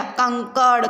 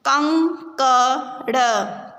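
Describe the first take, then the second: First: Said in the usual way. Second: कंकड़ drawn out very slowly; slow syllable reading. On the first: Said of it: "तो पूरा शब्द क्या बन गया?". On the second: Shown as a demonstration. Teacher sounds out कंकड़ for the class, very slowly. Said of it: "शब्दों को पढ़ेंगे".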